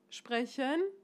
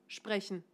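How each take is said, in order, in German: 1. Die Tonhöhe steigt am Ende des Wortes. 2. Die Tonhöhe fällt am Ende des Wortes. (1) "Geht es nach oben?" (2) "Geht es nach unten?"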